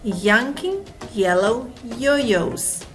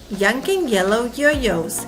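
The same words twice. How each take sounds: First: It is said slowly. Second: It is said quickly.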